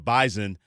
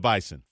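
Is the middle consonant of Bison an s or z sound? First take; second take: z; s. First: The middle consonant is a z sound. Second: The middle consonant is an s sound. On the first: The speaker calls it right. "it is the Bison" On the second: The speaker calls it wrong. "not the Bison"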